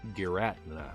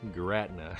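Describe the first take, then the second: First: The name is said with three syllables. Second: The name is said with three syllables.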